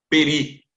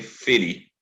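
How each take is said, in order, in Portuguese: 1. A palavra começa com som de p. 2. A palavra começa com som de f. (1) "vem com um ponto dentro" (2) "como terminou a palavra com uma vogal forte, então eu vou ler borê, feri, não mais peri"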